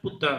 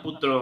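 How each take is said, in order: First: It is said in the Pali pronunciation. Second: It is said in the Sanskrit pronunciation. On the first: "পালি প্রনাউন্সিয়েশন পুত্রা হয়" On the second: "সংস্কৃত প্রনাউন্সিয়েশন পুত্র হয়"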